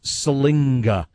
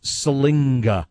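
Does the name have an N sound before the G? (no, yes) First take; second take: yes; yes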